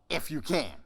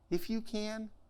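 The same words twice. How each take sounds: First: It sounds like an incredulous rebuke. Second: It sounds gentle and sympathetic.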